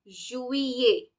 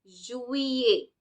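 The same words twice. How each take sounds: The two takes are said the same way.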